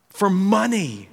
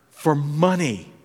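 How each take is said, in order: First: "For money" said higher and slower, leaning on "money"; emphatic repeat. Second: Said in the usual way. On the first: Shown as a demonstration. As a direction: punch "money" on a high, slow fall.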